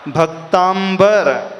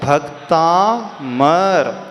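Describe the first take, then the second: First: It has a nasal 'm' followed by 'b'. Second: It has a plain 'm' with no 'b'. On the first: The speaker calls it wrong. "प्राय सभी लोग इसे भक्तांबर स्तोत्र बोलते हैं।" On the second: The speaker calls it right. "इसका नाम क्या है?"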